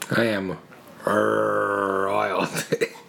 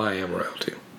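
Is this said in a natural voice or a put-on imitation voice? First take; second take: put-on; natural. First: It is said in a put-on imitation voice. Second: It is said in the speaker's ordinary voice.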